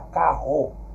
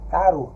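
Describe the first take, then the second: First: The r is a strong, harsh sound. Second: The r is a soft single tap. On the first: The speaker calls it wrong. "eu não posso dizer" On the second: The speaker calls it right. "Eu tenho que ter um som mais brando"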